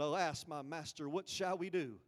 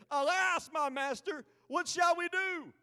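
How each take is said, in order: First: It is said in a calm, subdued way. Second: It is said in an energetic, excited way.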